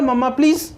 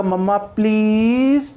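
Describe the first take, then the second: First: mamma please said quickly, please cut short, higher overall; no pleading stretch. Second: mamma please with a long, drawn-out rising please; pleading rising tone. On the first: Teacher showing how a child would not ask, short unpleading demand. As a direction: say mamma please briskly without drawing out please. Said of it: "ऐसे थोड़ी कहेगा". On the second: Child asking mother for chocolate, drawn-out rising plea. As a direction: stretch please like a begging child. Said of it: "तो rising tone होगी उसकी". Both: Shown as a demonstration.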